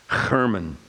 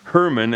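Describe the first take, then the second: First: It starts with a rough throaty h sound. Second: It starts with a plain English h sound. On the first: The speaker calls it right. "it is a het letter" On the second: The speaker calls it wrong. "as we say"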